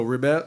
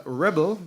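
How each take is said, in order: First: "rebel" said as the verb, ri-BEL with the second syllable stressed. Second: "rebel" said as the noun, REB-el with the first syllable stressed. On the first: Preacher repeating the verb form to the congregation: "rebel" as re-BEL. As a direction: land on the end of "rebel", re-BEL. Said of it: "which is a verb". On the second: Preacher repeating the noun form to the congregation: "rebel" as REB-el. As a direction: hit the front of "rebel", REB-ul. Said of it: "The noun is rebel". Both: Shown as a demonstration.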